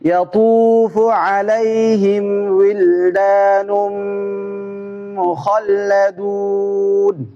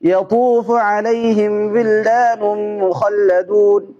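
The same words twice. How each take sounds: First: It is read slowly and steadily. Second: It is read quickly. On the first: "দ্রুত না, শুদ্ধ করে আস্তে আস্তে করে" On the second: "দ্রুত করে"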